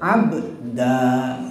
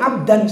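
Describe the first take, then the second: First: The word ends with a long vowel. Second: The word ends with an n sound. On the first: The speaker calls it right. "Ini mad iwad namanya nih. Mad iwad pengganti ya. Pengganti tanwinnya alif" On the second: The speaker calls it wrong. "abdan salah"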